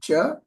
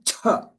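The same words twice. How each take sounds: First: The consonant is plain, without a puff of air. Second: The consonant is released with a strong puff of air. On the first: "So this is cha" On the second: "the next one is cha"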